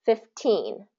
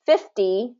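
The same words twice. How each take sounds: First: Put-on fifteen stressed on teen, falling softer; second syllable stress. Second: Fifty stressed on fif, rising; first syllable stress. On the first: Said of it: "second syllable stress". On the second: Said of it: "first syllable stress". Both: Shown as a demonstration.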